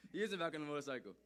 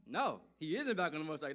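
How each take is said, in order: First: Said in the usual way. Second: Emphatic denial. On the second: Acted.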